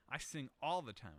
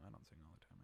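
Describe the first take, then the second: First: Said in the usual way. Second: Much lower and much softer, almost under the breath; soft mumbled admission; sheepish retraction. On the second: Real, not acted. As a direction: take it back quietly, embarrassed. Quiet correction after joking claim.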